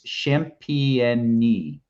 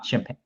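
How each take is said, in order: First: The name ends with an 'ee' sound. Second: The name ends with an 'ain' sound. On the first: This is the pronunciation a guide gives. "I'm getting pronunciation guides here. It's Champigny" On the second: This is the speaker's habitual pronunciation. "I'm just champagne. I'm just going to do it how I do it"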